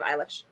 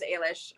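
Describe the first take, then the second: First: Eilish said as EYE-lish; "eye" opening on Eilish; EYE-lish pronunciation. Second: Eilish said as AY-lish; long "ay" opening on Eilish; AY-lish pronunciation. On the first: Co-host naming the less liked Eilish, EYE-lish. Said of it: "instead of". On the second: Co-host naming her preferred Eilish, AY-lish. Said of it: "I like it better as". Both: Shown as a demonstration.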